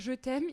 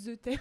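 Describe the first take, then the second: First: The first word starts with a normal 'zh' sound. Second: The first word starts with a lisped 'th' sound. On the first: The speaker calls it right. "au lieu de lui dire je t'aime" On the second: The speaker calls it wrong. "il avait un cheveu sur la langue"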